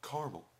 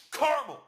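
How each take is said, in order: First: Mock yell, high-pitched and contained; repeated yell, toned down. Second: Very high, loud exasperated yell; imitated shriek of frustration. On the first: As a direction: replay the yell at normal volume. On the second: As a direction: scream the word like a customer at breaking point. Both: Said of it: "he yelled it".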